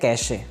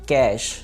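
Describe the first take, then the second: First: An extra vowel follows the final sh sound. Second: The word ends on the sh sound. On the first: The speaker calls it wrong. "लोग इसे बोलते हैं" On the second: The speaker calls it right. "बल्कि लफ्ज़ है कैश"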